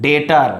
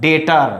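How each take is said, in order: The two takes are said the same way.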